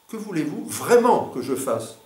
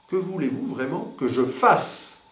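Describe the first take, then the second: First: The emphasis falls on the word voulez-vous. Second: The emphasis falls on the word fasse. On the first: The focus is on what the person wants. "vous attirez soit l'attention sur vouloir" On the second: The focus is on the action to be done. "ou sur faire"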